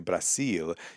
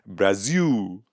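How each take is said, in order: First: It is pronounced the Spanish way. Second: It is pronounced the Portuguese way. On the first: "don't say Brasil" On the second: "You say Brazil"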